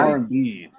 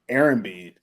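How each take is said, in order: First: The name is said in a Finnish-sounding way. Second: The name is said in a plain English way. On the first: "that's because I'm pronouncing it like it's Finnish" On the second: "I think it's like Aaron B"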